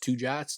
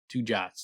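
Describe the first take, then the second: First: "Two jots?" asked with a higher rising pitch; the question reread as a question, not a statement; incredulous question. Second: Said in the usual way. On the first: A narrator's reading. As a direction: ask "Two jots?" in disbelief. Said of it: "or he asked". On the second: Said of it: "Tempe shrugged".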